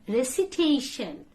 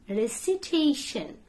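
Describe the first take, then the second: The two takes are said the same way.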